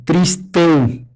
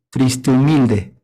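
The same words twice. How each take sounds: First: "Triste u" with the final e gliding into u as one syllable; clipped sinalefa demo; sinalefa shown. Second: "triste humilde" said slowly, with the e and u of humilde merged and the h silent; slow full sinalefa demo. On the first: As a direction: link "Triste u" in one breath. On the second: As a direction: draw out "triste humilde" as one linked phrase. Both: Shown as a demonstration. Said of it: "se junta la E con la U".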